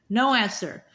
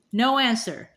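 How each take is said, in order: Both takes have the same delivery.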